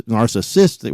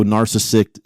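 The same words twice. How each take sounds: First: Said in the usual way. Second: "narcissist" garbled, ending as narcissikt; stumbled "narcissist" with a botched final s; fumbled word. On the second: Real, not acted. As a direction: trip over "narcissist", ending in a kt sound. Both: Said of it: "Wow, I can't even say it".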